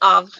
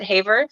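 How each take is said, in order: First: The name is said the French way. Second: The name is said the English way, ending in -er. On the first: "but in French it's Havre" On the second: "some people might just pronounce it Haver"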